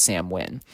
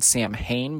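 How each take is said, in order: First: Samhain said as "SAM-win"; correct pronunciation. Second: Samhain said as spelled, "sam-HAYN"; spelling pronunciation. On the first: Speaker teaching how it's pronounced, Samhain spoken as "sam-win". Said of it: "but it's pronounced Samhain". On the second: Speaker showing how it's spelled, Samhain read as "sam-hayn". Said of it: "It's actually spelled Samhain". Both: Shown as a demonstration.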